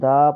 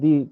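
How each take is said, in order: First: The word ends with an 'uh' vowel. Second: The word ends with an 'ee' vowel. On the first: The speaker calls it wrong. "দা pronunciation" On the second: The speaker calls it right. "দি pronunciation"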